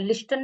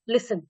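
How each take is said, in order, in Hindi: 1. 't' की आवाज़ बीच में बोली जाती है। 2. 't' की आवाज़ बिल्कुल नहीं बोली जाती। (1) "लिस्टन नहीं बोलते हैं" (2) "टी साइलेंट है"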